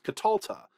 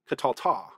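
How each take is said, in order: First: The stress is on the second-to-last syllable. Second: The stress is not on the second-to-last syllable. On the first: The speaker calls it right. "The accent has shifted to the second to last syllable" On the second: The speaker calls it wrong. "This is not Catalta"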